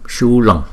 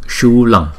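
No difference in how they are said.

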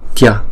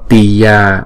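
First: It is joined into a single syllable. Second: It is split into two separate syllables. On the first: The speaker calls it right. "mà là tya" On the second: The speaker calls it wrong. "Không đọc là tiya thành hai âm"

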